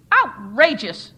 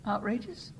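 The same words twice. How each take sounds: First: "Outrageous!" blasted much louder, slow and falling; screamed. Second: Said in the usual way. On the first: A narrator's reading. The chairperson roars "Outrageous!" at the church, loud and slow. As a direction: bellow "Outrageous!" as a verdict. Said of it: "screamed the chairperson". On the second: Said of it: "You think it's outrageous?".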